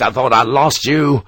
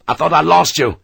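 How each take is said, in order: First: Heartfelt relief. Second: Calling out. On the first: Sharp greets Harper after fearing him dead, relieved. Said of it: "relief at Harper's survival was heartfelt". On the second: Sharp calls to Harper on his return, calling out. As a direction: call it across to him. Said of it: "he called out to Harper". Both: Acted.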